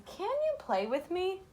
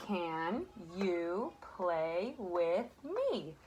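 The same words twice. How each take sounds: First: Higher, rising like a question; questioning read. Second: Very slow, word by word, like pointing at each word; slow pointing read. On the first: Teacher rereading the sentence to students as a question. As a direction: lift the voice to show it asks something. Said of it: "let's listen to that sentence again". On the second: Teacher reading slowly to children, word by word. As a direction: read it slowly, one word at a time for the kids. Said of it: "I'll point and you read". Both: Shown as a demonstration.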